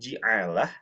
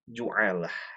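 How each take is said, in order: First: The first vowel is an i sound. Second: The first vowel is a u sound. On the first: "dengan logat mengkasrohkan huruf jim" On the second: "mendomahkan huruf jim"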